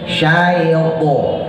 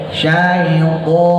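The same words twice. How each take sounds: No difference in how they are said.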